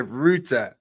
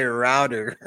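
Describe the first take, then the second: First: "router" said as ROO-tuh; "router" as ROO-tuh, no final r; speaker's own pronunciation. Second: "router" said the American way, ROW-der; American pronunciation. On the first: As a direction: say "router" with an OO vowel and crisp t. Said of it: "It's clearly a router". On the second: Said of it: "Do you guys say router?". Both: Shown as a demonstration.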